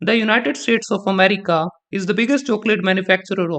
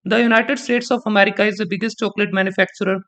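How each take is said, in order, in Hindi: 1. Subject के बाद हल्का सा पॉज़ है। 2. सब्जेक्ट के बाद कोई पॉज़ नहीं है, यह आगे चलता रहता है।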